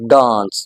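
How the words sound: It has a British accent with a long vowel. "In British English it's pronounced as aa... this is actually a long vowel sound"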